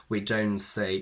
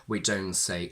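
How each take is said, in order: No difference in how they are said.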